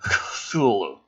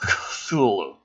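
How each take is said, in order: First: The name is said with harsh, throaty sounds. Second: The name is said with harsh, throaty sounds.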